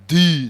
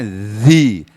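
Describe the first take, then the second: First: The word begins with a plain d sound. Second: The word begins with a buzzing z-like sound. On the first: The speaker calls it wrong. "jangan baca di" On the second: The speaker calls it right. "ini membacanya zi"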